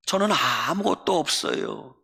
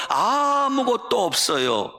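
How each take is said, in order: First: 저는 아무것도 없어요 with a sulky falling tone on 저는; sulky complaint. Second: Higher, slower 아무것도 없어요 with 아무것도 stressed and falling; peak of a sulky complaint. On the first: Poet grumbling to God about having nothing, sulky. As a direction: grumble it like a hurt child. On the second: Poet crying out to God that she has nothing, sulky and slow. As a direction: pour out the grievance at its peak. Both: Retold or imitated. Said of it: "볼멘 소리로 기도했어요".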